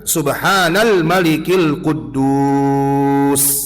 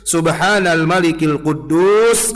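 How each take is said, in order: First: The phrase is drawn out and lengthened. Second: The phrase is said at normal length.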